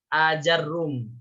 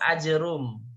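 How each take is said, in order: First: Long first vowel, a after j, doubled r. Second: Short first vowel, no vowel after j, single r. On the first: "kalau yang kedua pakai fathah" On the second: "hamzanya tidak baca panjang, tapi dibaca pendek. Jimnya disukunkan, ro-nya dihilangkan tasydidnya"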